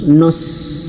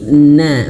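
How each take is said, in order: First: The syllable is thick, with a back vowel. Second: The syllable is thin, with a front vowel. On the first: The speaker calls it wrong. "jangan sampai shad ini menebalkan huruf nun yang tipis" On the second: The speaker calls it right. "bukan nos tapi na"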